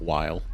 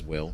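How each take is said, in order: First: The vowel is long, like in 'mile'. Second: The vowel is short, like in 'fill'. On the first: The speaker calls it wrong. "and not Weil. I've just been pronouncing it wrong" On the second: The speaker calls it right. "it actually is Will"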